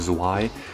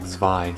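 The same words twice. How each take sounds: First: The word is said without a V sound. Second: The word is said with a V sound. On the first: The speaker calls it wrong. "you don't just pronounce it like that" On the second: The speaker calls it right. "It's kind of like a V sound in there"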